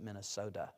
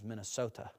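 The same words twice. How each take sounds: First: The sound before the last vowel is a D. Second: The sound before the last vowel is a T. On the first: The speaker calls it wrong. "not Minnesota. It's not a D" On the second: The speaker calls it right. "It's not a D, it's a T"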